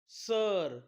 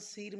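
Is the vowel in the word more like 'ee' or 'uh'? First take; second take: uh; ee. First: The vowel sounds like 'uh'. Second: The vowel sounds like 'ee'. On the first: The speaker calls it right. "आईचा उच्चार काय होतो, अ" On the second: The speaker calls it wrong. "आपण सीर म्हणू शकत नाही"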